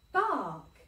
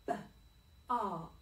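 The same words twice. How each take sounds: First: Bark. said whole and loud; blended word. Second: B-ark. split into b and ark; chopped word. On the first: Teacher blends bark for the class, loud whole word. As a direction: punch out Bark. as one word. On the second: Teacher segments bark for children, chopped sounds. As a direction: chop B-ark. slowly apart. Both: Shown as a demonstration. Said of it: "sound this word out".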